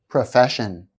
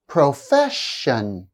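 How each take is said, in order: First: Said in the usual way. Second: "Profession" slowly, middle syllable held; slow, stressed middle syllable. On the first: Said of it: "slowly the first time". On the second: Shown as a demonstration. Teacher showing stress before shun ending, slow demo. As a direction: draw out "Profession", leaning on the second syllable. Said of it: "I'll say the word slowly the first time".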